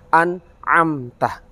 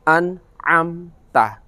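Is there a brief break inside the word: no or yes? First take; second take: yes; yes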